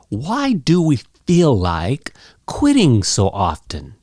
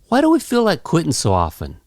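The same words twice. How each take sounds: First: It is said slowly, with every word clear. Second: It is said quickly, with sounds run together. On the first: The speaker wants to be understood. "you could say it nice and clear" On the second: This is how most people say it. "you could say it fast and casual like this"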